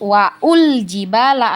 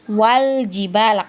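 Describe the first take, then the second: First: A glottal stop and 'u' follow 'wa'. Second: 'Wa' links straight into 'l' without a stop. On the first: The speaker calls it wrong. "bukan wa'ul jibala" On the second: The speaker calls it right. "tapi wal jibala, karena hamzah wasolnya tadi ini sudah kita anggap tidak ada"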